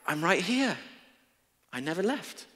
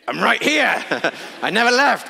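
First: It is said in a calm, gentle tone. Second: It is said in a frustrated, exasperated tone.

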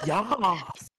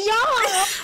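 First: It is said in a plain, natural voice. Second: It is said in an exaggerated, flamboyant voice. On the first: "It's your accent"

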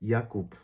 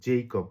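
First: The name starts with a Y sound. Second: The name starts with a J sound. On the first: This is the German pronunciation. "জে এর উচ্চারণটা ওয়াইয়ের মতো উচ্চারণ করি" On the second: This is the English pronunciation. "আমরা ইংরেজিতে একটা নাম জানি জেইকব"

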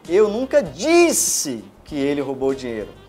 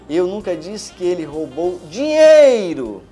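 First: The stress is on the word disse. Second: The stress is on the word dinheiro.

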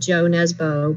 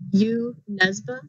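First: The name is said with an English-style pronunciation. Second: The name is said with a Norwegian pronunciation. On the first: The speaker calls it wrong. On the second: The speaker calls it right.

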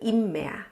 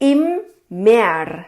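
First: The final r becomes an open vowel sound. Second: The final r is pronounced as a consonant. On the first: This is how it is normally spoken. "ปากเราจะอ้านะคะเพราะว่าตัว r อยู่ข้างหลังมันจะกลายเป็นตัว r" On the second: The spelling has an r at the end. "อันนี้ออกเสียงให้ดูเพื่อให้รู้ว่าเวลาเราเขียนตามคำบอกเนี่ยมันจะมีตัว r อยู่ข้างหลัง"

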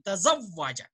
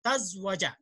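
First: The second consonant is followed by a short a vowel. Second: The second consonant is said without a following vowel. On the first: The speaker calls it right. "ता के ऊपर भी जबर है, फिर दूसरे हरफ के ऊपर भी जबर है" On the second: The speaker calls it wrong. "आप एन को साकिन करते हैं कभी, जैसे अभी फरत पढ़ रही थी"

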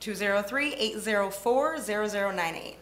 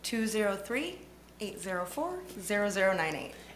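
First: The number is said at normal speed. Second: The number is said slowly.

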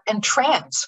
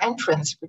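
First: The stress is on the second syllable. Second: The stress is on the first syllable. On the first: To charm. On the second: A way in.

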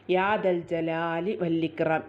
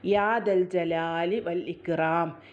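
Both takes have the same delivery.

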